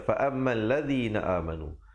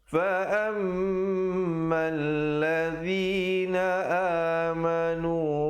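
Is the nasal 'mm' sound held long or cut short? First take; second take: cut short; held long. First: The nasal sound is cut short and rushed. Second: The nasal sound is held for two beats. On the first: The speaker calls it wrong. "Ramai orang baca begitu. ... Salah" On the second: The speaker calls it right. "didengungkan dua harakat"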